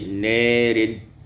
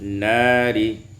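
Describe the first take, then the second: First: The long vowel after n leans toward e. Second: The long vowel after n is an open a.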